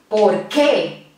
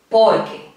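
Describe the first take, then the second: First: The stress is on the second syllable. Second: The stress is on the first syllable. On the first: "la mayor intensidad de voz aquí yo la hago en esta parte, en esta sílaba, que" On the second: "la mayor fuerza de la voz la hago en esta sílaba, por"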